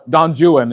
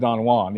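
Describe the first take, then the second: First: It is said with an English-style pronunciation. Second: It is said with the standard original pronunciation. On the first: "Don Juan instead of" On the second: "instead of Don Juan"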